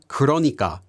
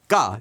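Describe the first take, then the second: First: It is said in full with four syllables. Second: It is reduced to a single quick syllable. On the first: "This is actually the word 그러니까" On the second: "or even just 까 if it's said very quickly"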